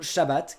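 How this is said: The word ends with an 'at' sound. "certains T deviennent des S"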